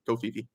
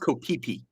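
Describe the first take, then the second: First: The name is said with f sounds. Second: The name is said with p sounds. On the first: "I will never say that" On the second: "technically pronounced Kopipi"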